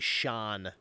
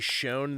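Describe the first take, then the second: First: The vowel is short, like in gone. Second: The vowel is long, like in bone. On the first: "some places in the U K, they say shone" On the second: "they don't say shown"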